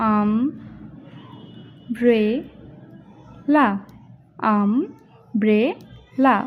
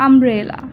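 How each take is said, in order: First: umbrella very slowly in three pieces, AM, BRE, LA; split into syllables. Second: Said in the usual way. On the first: Shown as a demonstration. Teacher demonstrating the three syllables of umbrella, broken apart slowly. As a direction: say umbrella one syllable per breath, long gaps between. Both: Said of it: "আম এক নিঃশ্বাসে উচ্চারণ".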